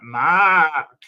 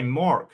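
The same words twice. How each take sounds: First: Loud, higher "Mark" with a cawing long "ah"; "Mark" with a drawn-out open "ah"; crow-like vowel. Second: "Mork" with an American-style "or" vowel; "Mark" turned into "Mork"; American mispronunciation. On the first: Shown as a demonstration. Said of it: "like a crow". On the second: Retold or imitated. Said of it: "And they say".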